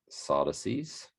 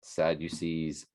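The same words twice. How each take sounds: First: Sadducees as SAH-duh-seez, rising at the end; alternate pronunciation. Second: Sadducees drawn out as SAD-you-seez; pronunciation demo. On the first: Reader checking which pronunciation is given, questioning SAH-duh-seez. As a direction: say Sadducees with open AH and no you. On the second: Reader checking which pronunciation is given, slow SAD-you-seez. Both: Shown as a demonstration. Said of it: "how it's pronounced here".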